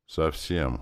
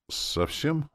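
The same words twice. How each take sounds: First: Said in the usual way. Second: High, small, bewildered "Совсем"; lost voice. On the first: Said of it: "Настя спросила потерянным голосом". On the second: A narrator's reading. Demoness hears of the deaths, lost. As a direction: ask "Совсем" as if at a loss. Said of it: "спросила потерянным голосом".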